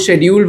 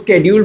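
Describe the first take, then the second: First: The word begins with an 'sh' sound. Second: The word begins with an 'sk' sound. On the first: "कई लोग शेड्यूल बोलते हैं" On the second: "कई लोग स्केड्यूल बोलते हैं"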